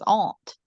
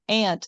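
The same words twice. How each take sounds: First: It is said in an Australian accent. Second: It is said in an American accent.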